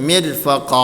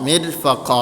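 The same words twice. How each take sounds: The two takes are said the same way.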